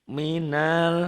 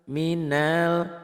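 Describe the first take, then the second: The two takes are said the same way.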